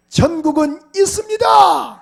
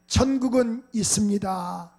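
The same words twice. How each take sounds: First: "있습니다" shouted high and slow; shouted proclamation. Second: Said in the usual way. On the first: Shown as a demonstration. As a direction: declare "천국은 있습니다" loudly to the congregation. (회중에게 "있습니다"를 크고 느리게 외침)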